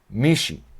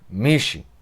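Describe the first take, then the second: First: The middle sound is dropped, giving two syllables. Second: The middle sound is dropped, giving two syllables.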